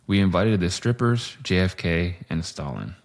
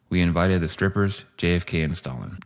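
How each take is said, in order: First: There is a pause after JFK. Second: There is no pause after JFK. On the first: The strippers, JFK and Stalin are three separate guests. "With the Oxford comma" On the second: JFK and Stalin are the strippers. "Without the Oxford comma"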